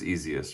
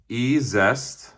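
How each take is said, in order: First: It is said like the word 'easiest'. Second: It is said as two parts, 'ee-zest'. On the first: The speaker calls it right. "I'm pretty sure it's Easiest" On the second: The speaker calls it wrong. "I saw them pronounce it E-Zest"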